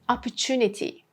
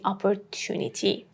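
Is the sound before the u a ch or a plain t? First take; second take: ch; plain t. First: The t before u sounds like ch. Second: The t before u is a plain t. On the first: "this t and u becomes chu" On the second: "Instead of saying opportunity"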